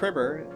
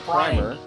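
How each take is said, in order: First: The first syllable rhymes with 'trim'. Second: The first syllable rhymes with 'time'. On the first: It refines you. "it prims you" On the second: It starts you off at the first level. "It starts you off at the prime level"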